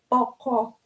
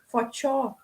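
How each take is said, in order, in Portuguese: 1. Começa com P e tem um som de 'k'. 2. Começa com F e tem um som de 'tch'. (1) "como a gente leria em português" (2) "esse P para os Waiwai é, um, é lido como o F, e o C como o som do tchau"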